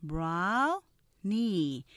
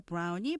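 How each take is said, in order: First: 브라우니 as two syllables, BROW-nie, stressed first; stressed front-heavy 브라우니; two-syllable brownie. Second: 브라우니 in four even syllables, pu-ra-u-ni; Korean-style 브라우니 with every vowel spoken; the wrong four-beat 브라우니; four-syllable Konglish brownie. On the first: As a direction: say 브라우니 English-style, slow, hitting the front. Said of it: "이음절로 하면서 앞에 액센트가 강조되죠". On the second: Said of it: "브라우니 이렇게 사음절로 하시는데". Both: Shown as a demonstration.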